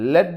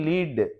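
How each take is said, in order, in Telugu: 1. అచ్చు హ్రస్వ ఎ ధ్వని. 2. అచ్చు దీర్ఘ ఈ ధ్వని. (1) "దాన్ని లెడ్ అని పలకాల్సి వచ్చేది" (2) "దీన్ని ఈ అని పలకాలి"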